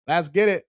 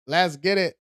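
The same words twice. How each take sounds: The two takes are said the same way.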